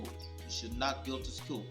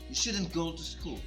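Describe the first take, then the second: First: Should not is said as two full words. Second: Should not is contracted into one word. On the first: "Rather than saying you should not go to school" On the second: "you can say you shouldn't go to school"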